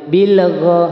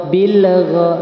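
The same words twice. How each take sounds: The two takes are said the same way.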